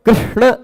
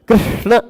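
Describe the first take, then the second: Both takes have the same delivery.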